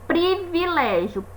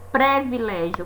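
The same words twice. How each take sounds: First: The first syllable has an 'ee' vowel. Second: The first syllable has an 'eh' vowel. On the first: The speaker calls it right. "Privilégio é com i" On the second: The speaker calls it wrong. "não é privilégio, como às vezes a gente escuta as pessoas falarem"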